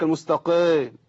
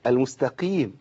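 First: المستقيم with its ee dulled toward ay; muddied kasra. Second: المستقيم with a pure long ee after q; correct kasra. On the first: Retold or imitated. Teacher imitates a faulty reciter, dulled vowel in المستقيم. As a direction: say المستقيم as al-mustaqeym. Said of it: "يقول لك المستقيم". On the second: Shown as a demonstration. Teacher gives the correction, pure ee in المستقيم. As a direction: say المستقيم as al-mustaqeem. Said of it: "هي إيه؟".

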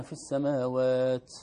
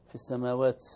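First: السماوات ending in a hissing, s-like taa; wrong whispered taa; over-breathed taa. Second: السماوات with a clean short taa; no extra air on the taa of السماوات; corrected taa. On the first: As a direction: push air after the taa of السماوات. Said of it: "كأنه همس السين". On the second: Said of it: "هذا زائد عن همس التاء". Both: Shown as a demonstration.

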